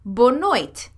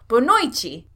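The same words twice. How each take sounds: First: The word ends with a clear t sound. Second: The word ends with a ch-like sound. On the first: "it ends in a T. The letter when you're spelling it is a T. So it's bonoite" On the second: "In Brazilian Portuguese, it's pronounced bonoite"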